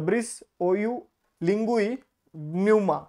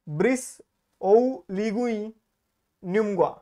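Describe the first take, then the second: First: The last name is said as 'Nyuma'. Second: The last name is said as 'Nyumgwa'. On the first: The speaker calls it right. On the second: The speaker calls it wrong.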